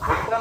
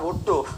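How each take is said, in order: First: The name ends with an 'a' vowel. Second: The name ends with an 'o' vowel. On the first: The speaker calls it wrong. "ভুট্টা না" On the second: The speaker calls it right. "ভুট্টো ওনার নাম"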